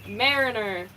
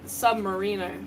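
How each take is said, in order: First: It is said with the word mariner inside. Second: It is said like the word submarine. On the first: The speaker calls it right. "I have to keep pronouncing it correctly" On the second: The speaker calls it wrong. "like it's submarine"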